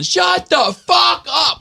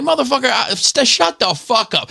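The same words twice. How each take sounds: First: High, drawn-out shout; stretched-out, high-pitched road-rage scream; retold yelling. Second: High, strained mock yell without full volume; worked-up road-rage comeback; retold angry retort. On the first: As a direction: holler each word slowly across a highway. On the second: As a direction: re-enact snapping back, pitched way up. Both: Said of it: "I just started yelling".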